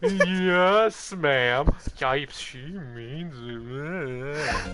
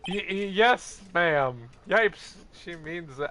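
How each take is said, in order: First: It is said in a sarcastic tone. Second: It is said sincerely, with nervous stammering.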